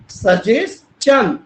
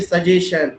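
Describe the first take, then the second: First: The middle sound is 'ch', as in 'chan'. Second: The middle sound is 'sh', as in 'shan'. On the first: The speaker calls it right. "इसका right उच्चारण है सजेशन" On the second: The speaker calls it wrong. "सब कहेंगे सजेशन"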